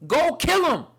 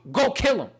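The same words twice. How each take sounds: First: High, loud repeated order from God; booming voice of God; divine command. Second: High, loud command from God; booming voice of God; divine command. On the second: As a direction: order it like God testing faith. God's command in Abraham story. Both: Retold or imitated.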